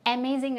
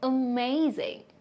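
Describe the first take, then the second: First: The first vowel is said full and strong. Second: The first vowel is reduced to a weak sound. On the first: The speaker calls it wrong. "അല്ല" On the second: The speaker calls it right. "you have to pronounce it as a"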